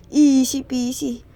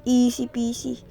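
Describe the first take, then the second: First: "Easy peasy" stretched out slowly, each word held; slow drawn-out easy peasy. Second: Said in the usual way. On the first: Shown as a demonstration. Gamer bragging about an easy stage, slow and drawn out. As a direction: drawl easy peasy like it is nothing.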